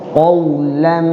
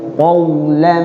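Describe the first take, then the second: Both takes have the same delivery.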